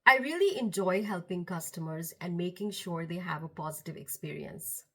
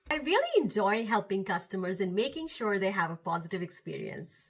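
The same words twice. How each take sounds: First: The tone is cooler and less lifted. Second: The tone is warm, smiling and lifted. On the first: The speaker calls it wrong. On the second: The speaker calls it right.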